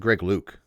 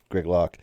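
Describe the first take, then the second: First: The surname has a long 'oo' vowel. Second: The surname has a short 'o' vowel. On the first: Some other people say it this way. "I've heard people pronounce it Greg Luke" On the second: The speaker believes this is the actual name. "But I think it's Greg Locke"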